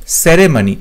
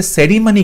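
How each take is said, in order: First: "সেরেমনি" with "e" in the middle, se-re-mo-ni; "সেরেমনি" with a clear middle "re"; correct pronunciation shown. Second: "সেরিমনি" with "i" in the middle, se-ri-mani; "সেরিমনি" with a middle "ri", as the mistake; wrong pronunciation shown. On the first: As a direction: say "সেরেমনি" as se-RE-mani. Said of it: "সঠিক উত্তর হবে option C". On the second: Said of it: "কিন্তু সেটা ভুল হবে". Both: Shown as a demonstration.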